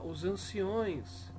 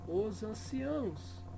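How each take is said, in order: First: The word ends with an 'ões' sound. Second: The word ends with an 'ãos' sound. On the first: The speaker calls it wrong. "Outro erro comum que as pessoas dizem" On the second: The speaker calls it right. "O correto é você dizer"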